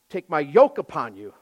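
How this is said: The word 'yoke' is stressed.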